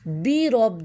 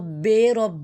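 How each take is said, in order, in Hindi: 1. पहले शब्द में साफ़ 'ee' स्वर है। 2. पहले शब्द में 'ay' स्वर है। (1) "बे नहीं करना" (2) "तो ये गलत था"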